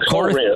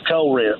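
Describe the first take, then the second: First: It is said in a neutral accent. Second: It is said with a Southern drawl.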